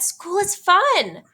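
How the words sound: It is said with excitement, like an exclamation.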